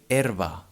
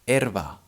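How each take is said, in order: Both takes have the same delivery.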